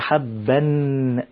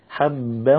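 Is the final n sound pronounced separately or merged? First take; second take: pronounced; merged. First: The final n sound is pronounced clearly on its own. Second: The final n merges with nasalization into the next word. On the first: The speaker calls it wrong. "ما بتقولش حبا" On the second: The speaker calls it right. "بتقول حبا حبا ونباتا"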